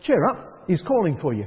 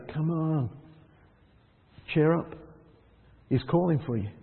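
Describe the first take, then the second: First: Bright encouragement. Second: Gentle encouragement. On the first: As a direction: lift him up, cheerfully urging. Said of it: "the others who say". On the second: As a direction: coax him gently to his feet. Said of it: "ones that say". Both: Retold or imitated.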